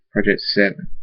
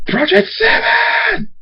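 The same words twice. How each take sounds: First: Said in the usual way. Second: Very high, drawn-out scream. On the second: Acted. Thunderstorm sees his enemy, furious high scream. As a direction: scream the name, stretching it out. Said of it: "Thunderstorm screams".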